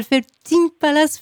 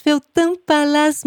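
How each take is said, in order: First: "Feltin" with a sounded N, "tine"; name sounded out. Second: "Feltin" with a nasal final vowel, "tain"; name corrected. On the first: Interviewer thanking guest by name, "Feltin" said as "Feltine". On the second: Interviewer correcting guest's name, "Feltin" with nasal ending. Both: Real, not acted.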